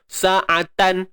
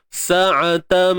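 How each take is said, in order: First: The word ends with a plain n sound. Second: The word ends with a nasalized m sound. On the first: The speaker calls it wrong. "tak ada bunyi tan dah. Sa'atan, tak mau" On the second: The speaker calls it right. "Sa'atam mim bersabdu. Dengunglah"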